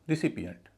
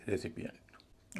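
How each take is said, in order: First: The first vowel is weak, like 'ri'. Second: The first vowel is full, like 'ray'. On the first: The speaker calls it right. "रिसिपियंट न कि" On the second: The speaker calls it wrong. "न कि रेसिपियंट"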